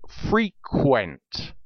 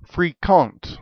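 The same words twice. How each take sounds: First: Said in the usual way. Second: Put-on fréquent said the Old French way, higher pitched; French-accented "fréquent", set apart as a foreign word; French pronunciation. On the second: Shown as a demonstration. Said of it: "It is from the Old French".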